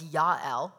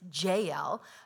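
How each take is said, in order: First: The name begins with a Y sound. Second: The name begins with a J sound. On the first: This is the original Hebrew way of saying the name. "which is the Hebrew pronunciation" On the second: This is the common English way of saying the name. "That's what most people say"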